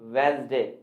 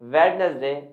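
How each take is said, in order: First: The middle syllable is dropped, leaving two syllables. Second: Every written syllable, including the middle one, is pronounced. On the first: The speaker calls it right. "अब हम इसे बोलेंगे वेंसडे" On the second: The speaker calls it wrong. "जिसे अभी तक हम क्या बोलते थे?"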